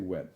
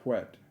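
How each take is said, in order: First: The word begins with a plain w sound. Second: The word begins with a breathy h before w. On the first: "But we say wet" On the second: "Proper pronunciation of W H together is with a H sound"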